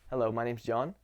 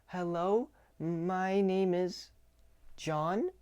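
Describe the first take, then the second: First: The greeting sounds ordinary and neutral. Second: The greeting sounds timid and unsure.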